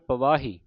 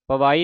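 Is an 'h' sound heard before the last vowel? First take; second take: yes; no. First: An 'h' sound is heard before the last vowel. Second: No 'h' sound is heard before the last vowel. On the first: The speaker calls it right. "ਹਾਹੇ Bihari ਉਚਾਰਨ ਕਰਨੀ" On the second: The speaker calls it wrong. "ਪਵਾਈ ਨਹੀਂ ਕਹਿ ਦੇਣਾ"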